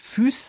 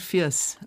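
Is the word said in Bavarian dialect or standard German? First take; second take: standard; Bavarian. First: The vowel is a standard German ü sound. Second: The vowel is a Bavarian dialect diphthong. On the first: This is not how locals would say it. The speaker calls it wrong. "Man würde nicht Füß sagen" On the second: This is how locals would say it. The speaker calls it right. "sondern Firs"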